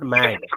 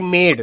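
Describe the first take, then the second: First: The vowel is short, like 'a' in 'cat'. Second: The vowel is long, like 'ay'. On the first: The speaker calls it wrong. "not mad" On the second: The speaker calls it right. "So I made"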